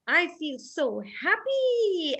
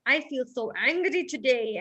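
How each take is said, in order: First: Happy. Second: Angry. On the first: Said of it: "you'd have to take the paper and say". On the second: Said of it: "or then". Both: Shown as a demonstration.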